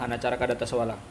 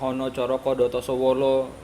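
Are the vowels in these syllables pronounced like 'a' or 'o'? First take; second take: a; o. First: The vowels are pronounced as open 'a' sounds. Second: The vowels are pronounced as rounded 'o' sounds. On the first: This is the Madurese pronunciation. "kalau dalam bahasa Madura" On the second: This is the Javanese pronunciation. "Kalau dalam bahasa Jawa"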